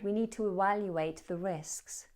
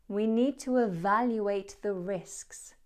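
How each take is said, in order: First: Evaluate is said with a W sound. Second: Evaluate is said with a V sound. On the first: The speaker calls it wrong. "It wasn't correct. I did mispronounce evaluate" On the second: The speaker calls it right. "The correct version"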